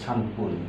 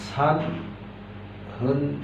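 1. দ্বিতীয় অংশটি p ধ্বনি দিয়ে শুরু হয়। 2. দ্বিতীয় অংশটি h ধ্বনি দিয়ে শুরু হয়। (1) "3 মিনিটকে সানপুন বলা হয়" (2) "সানহুন বলা হয় না"

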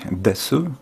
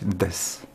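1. Końcowa samogłoska u jest wyraźnie wymawiana. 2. Końcowa samogłoska u jest pomijana. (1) "zamiast mówić desu" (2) "jest im po prostu wygodniej mówić des"

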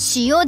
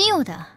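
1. 最初の音節の後でピッチが上がる。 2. 最初の音節の後でピッチが下がる。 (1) "アクセントが違う。塩ではなく"

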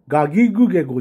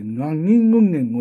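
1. gの音は普通で、鼻にかかった感じはありません。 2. gの音は鼻音で、ngのような感じです。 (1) "がぎぐげごじゃなくて" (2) "その微濁音っていうのはね、つくんですけども"

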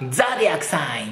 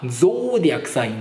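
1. 最初の母音は「a」の音です。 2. 最初の母音は長い「o」の音です。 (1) "ザディアクサインっていう発音よりは" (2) "ゾーディアクサインの方が好きなんでね"

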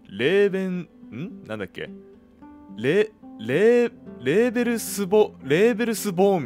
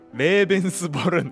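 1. その名前は「Leberusbōn」と発音します。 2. その名前は「Lebensborun」と発音します。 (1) "レーベルスボーンみたいなこと言ってましたよね" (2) "正しくは"

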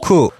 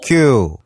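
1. y 반모음이 없습니다. ku. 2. y 반모음이 있습니다. kyu. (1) "월을 할 때는 쿠가츠" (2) "숫자를 셀 때는 큐라고 하는데"

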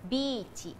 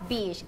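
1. ออกเสียงแบบญี่ปุ่น 2. ออกเสียงแบบอังกฤษ

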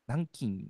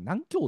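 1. 最後の音は"kin"です。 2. 最後の音は"kyou"です。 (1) "どうしたらこれが金って読めるのかなって" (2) "最初なんか南京って読んでたね"

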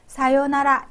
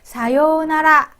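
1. 두 번째 음절의 모음은 짧아요. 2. 두 번째 음절의 모음은 길어요. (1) "짧게 해도 됩니다" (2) "장음을 넣어서 사요나라 해도 되고"

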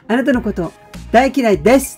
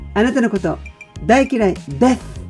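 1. 最後の音節は普通のsの音で終わります。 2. 最後の音節は舌足らずのthの音で終わります。

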